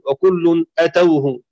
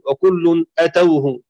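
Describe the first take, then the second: First: The opening vowel is short and an a-vowel follows. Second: The same.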